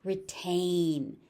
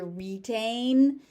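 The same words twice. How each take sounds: First: "Retain" as ruh-TAIN; short, unstressed ruh opening "Retain"; reduced first vowel. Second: "retain" as ree-TAIN; long EE in the first syllable of "retain"; alternate pronunciation. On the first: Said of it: "You may also hear". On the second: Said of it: "You may also hear retain". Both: Shown as a demonstration.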